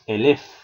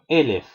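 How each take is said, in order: First: The stress is on the last syllable. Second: The stress is on the first syllable. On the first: The speaker calls it wrong. "no es elef" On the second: The speaker calls it right. "sino elef"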